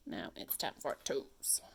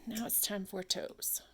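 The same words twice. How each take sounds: First: Whispered, slow and soft. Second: Said in the usual way. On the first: Shown as a demonstration. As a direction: breathe the line out in a whisper. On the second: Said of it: "Now it's time for toes. (whispered repeat)".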